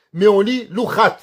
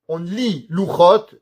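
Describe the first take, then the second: First: Louchat ending in a bright a, set against Louchot. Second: Louchot said slowly, ending in a clear o sound. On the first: Teacher contrasting the reading Louchat for the class. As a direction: land on the a of Louchat. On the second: Teacher showing the students how Louchot is written. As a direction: draw out Louchot with an open o. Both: Shown as a demonstration.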